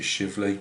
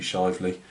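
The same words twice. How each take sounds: First: Shively with a short i, as in "shiv"; short-i pronunciation. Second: Shively with a long i, as in "shy"; long-i pronunciation. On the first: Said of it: "but it could be Shively". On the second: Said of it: "I pronounce it Shively". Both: Shown as a demonstration.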